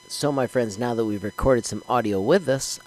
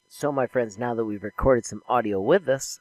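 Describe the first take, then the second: First: A faint background hiss is heard under the voice. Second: The voice is heard without the background hiss. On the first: "I detected a little bit of a hiss during that video" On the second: "through the Camtasia audio filter with its default settings"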